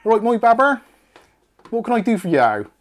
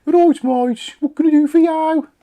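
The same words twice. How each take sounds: First: Loud, high, hammed-up Bristolian accent. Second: Very high, loud mock Brummy accent. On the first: Host imagining a Bristolian Siri, hammed-up Bristolian accent. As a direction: put on a broad Bristolian voice assistant. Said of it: "ugly Bristolian Siri would be great". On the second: Host playing Siri gone Brummy, hammed-up Brummy accent. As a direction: exaggerate a Birmingham accent, pitched right up. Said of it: "that went into Brummy then".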